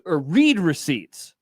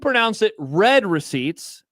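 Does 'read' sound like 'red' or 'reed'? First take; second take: reed; red. First: Read is said with a long vowel, like reed. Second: Read is said with a short vowel, like red. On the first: The speaker calls it wrong. "R E E D" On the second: The speaker calls it right. "R E D"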